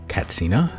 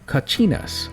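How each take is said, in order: First: The middle consonant is a 'ts' sound. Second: The middle consonant is a 'ch' sound. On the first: This is the form the community itself prefers. "the Hopi tribe prefer the term Katsina" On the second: This is the commonly used form of the term. "they're pronounced Kachinas"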